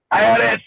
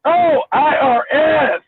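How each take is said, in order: First: Imitated Indian accent on the initials. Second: Said in the usual way. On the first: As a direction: repeat the letters in a mock Indian accent. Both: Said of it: "with an Indian accent".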